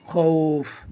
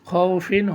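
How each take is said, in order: First: The word ends abruptly on the 'f' sound. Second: The word ends with a nasal 'in' syllable. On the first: The speaker calls it right. "পড়তে হবে খৌফ" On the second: The speaker calls it wrong. "খও ফিন হয়"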